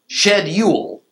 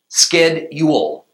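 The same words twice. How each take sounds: First: The word begins with an 'sh' sound. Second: The word begins with an 'sk' sound. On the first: This is how it is said in England. "to capture the sound of that word in England, it ought to be spelled S-H-E-D-Y-O-O-L" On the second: This is how it is said in the USA. "In the U.S., it should be spelled S-K-E-D-U-A-L"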